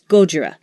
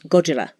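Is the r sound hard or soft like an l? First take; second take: hard; soft. First: The r sound is a hard English r. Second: The r sound is soft, between r and l.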